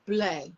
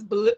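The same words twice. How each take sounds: First: "bleu" said the French way, ending on an open "eh" sound. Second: "blue" said the English way, rhyming with "shoe". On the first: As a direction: correct it to the French "bleu", slow and deliberate. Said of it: "bleu with blue". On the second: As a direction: read "blue" as the plain English colour word. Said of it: "I think it's just bleu". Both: Shown as a demonstration.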